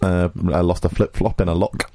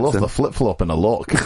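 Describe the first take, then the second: First: It is said in the speaker's ordinary accent. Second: It is said in a put-on Scottish accent.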